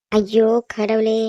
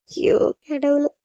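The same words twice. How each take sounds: First: Slow, drawn-out weary groan of words; exasperated. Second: Slow, drawn-out sigh of regret; anguished lament. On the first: Sleepy sister fed up with the crying, exasperated. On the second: Girl alone regretting her harsh words, anguished lament. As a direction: lament it slowly, full of regret. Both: Acted.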